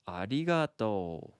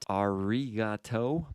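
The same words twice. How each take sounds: First: The R is a light blend of R, D and L. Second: The R is a strong English-style er sound. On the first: The speaker calls it right. "but it's arigato" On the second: The speaker calls it wrong. "not arigato"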